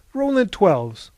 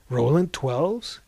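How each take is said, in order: First: Said in the usual way. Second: Slow, rising question of disbelief; astonished question. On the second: A narrator's reading. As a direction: echo the name as an awed question. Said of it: "gasped Mahogany".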